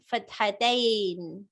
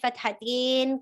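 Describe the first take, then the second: First: The word ends with an 'ain' sound. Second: The word ends with an 'in' sound. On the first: This is the form used when something changes grammatically. "some people pronounce it as" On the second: This is an accent, not pure Arabic. "in, in, in sound. There's no in sound in pure Arabic"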